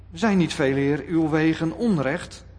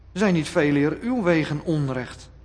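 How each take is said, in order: No difference in how they are said.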